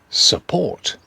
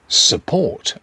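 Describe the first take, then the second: Both takes have the same delivery.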